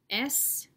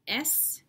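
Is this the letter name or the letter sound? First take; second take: name; name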